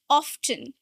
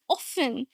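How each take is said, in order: First: The T sound in the middle is pronounced. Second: The T sound in the middle is silent. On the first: This is the older way of saying it. "this word often used to be pronounced with the T" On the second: This is the later way of saying it. "So it changed to often"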